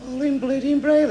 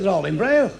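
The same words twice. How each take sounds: First: High, exasperated repeat; raised-pitch mock astonishment; incredulous echo. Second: Said in the usual way. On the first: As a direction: throw it back in disbelief. Passenger repeats answer in disbelief.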